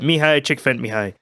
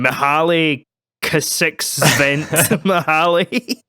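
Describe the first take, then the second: First: The name follows a native speaker's pronunciation. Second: The name is sounded out letter by letter. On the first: This copies how a native speaker says it. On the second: This is how the written letters suggest it sounds.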